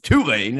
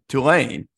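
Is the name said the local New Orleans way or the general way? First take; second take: local; general. First: The name is said the local New Orleans way. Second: The name is said the general, non-local way. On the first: "as they like to say in New Orleans" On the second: "as opposed to"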